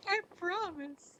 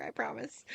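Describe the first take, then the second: First: High, slow, sing-song I promise; squeaky promise. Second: Said in the usual way. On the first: Pretend. Teasing a chat viewer, a squeaky high promise. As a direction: coo it like an innocent little voice. Teasing reassurance after stalker joke.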